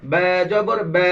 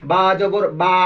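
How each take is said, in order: First: বা with the mouth lightly open, near "bæ"; correct pronunciation. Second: বা with the mouth too wide, broad "baa"; over-open pronunciation. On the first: Teacher models correct reading for pupils, light fronted বা. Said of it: "সহি উচ্চারণ হলো". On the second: Teacher shows pupils the mistake, বা opened too wide. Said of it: "অতটুকু খোলা হবে না". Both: Shown as a demonstration.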